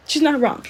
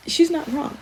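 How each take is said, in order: First: Said in the usual way. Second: Unvoiced whisper, higher; whispered aside. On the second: Real, not acted. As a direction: confide it as a half-laughing whisper. Quiet aside after laughing.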